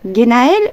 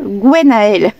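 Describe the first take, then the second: First: The name begins with a plain g sound. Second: The name begins with a gw sound. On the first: "la prononciation numéro un" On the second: "prononciation numéro deux"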